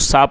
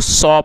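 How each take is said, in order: First: The vowel is an open 'ah' sound. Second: The vowel is a rounded 'aw' sound. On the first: The speaker calls it wrong. "बहुत से लोग इसको सा पढ़ते हैं, ... जो सा है वो एक रॉन्ग प्रोनाउंसिएशन है" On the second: The speaker calls it right. "आप इसको सौ पढ़ें"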